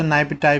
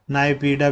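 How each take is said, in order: First: नाइपिटाई said nai-pi-tai, ending in a T sound; alternate pronunciation. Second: नाइपीडा said nai-pee-da, with a retroflex ड; other pronunciation. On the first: Teacher showing students one way to say नाइपिटाई. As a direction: say नाइपिटाई with a final ताई. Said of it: "कुछ लोग इसे नाइपिटाई भी बोलते हैं". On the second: Teacher giving students the second form, नाइपीडा. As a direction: say नाइपीडा ending in डा. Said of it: "कुछ नाइपीडा भी बोलते हैं". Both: Shown as a demonstration.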